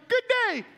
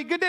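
First: Much higher, strained greeting; greeting pushed up into a squeak; panicked squeaky greeting. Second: Said in the usual way. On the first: Retold or imitated. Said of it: "And so I'm panicking". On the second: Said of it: "people flying by me".

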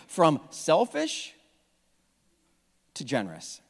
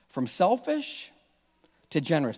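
First: Said in the usual way. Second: "selfish" drawn out slowly with a rise, "generous" dropped soft; half speed, lean on "selfish" then settle on "generous"; slow emphatic repeat. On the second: Shown as a demonstration. Pastor repeating the sermon theme slowly for the church to remember.

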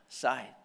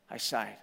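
First: Breathy sighed word, soft and low; demonstrated sigh on the word. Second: Said in the usual way. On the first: Shown as a demonstration.

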